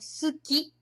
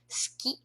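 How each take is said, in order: First: The u after the s is clearly pronounced. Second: The u after the s is silent. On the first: The speaker calls it wrong. "algumas nacionalidades eles falam suki, né? ... não soa natural" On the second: The speaker calls it right. "Natural seria a gente omitir esse u. Esse u seria silencioso"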